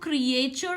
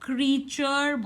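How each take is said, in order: First: It is said in three syllables, cree-ay-chur. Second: It is said in two syllables, cree-chur. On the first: The speaker calls it wrong. "इसको क्रिएचर नहीं बोलते" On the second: The speaker calls it right. "हम इसको क्रीचर बोलते हैं, क्री and चर"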